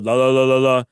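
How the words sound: It is said at a very low pitch.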